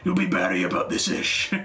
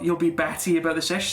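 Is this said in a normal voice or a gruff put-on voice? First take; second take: gruff; normal. First: It is said in a gruff, growling put-on voice. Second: It is read in a normal speaking voice.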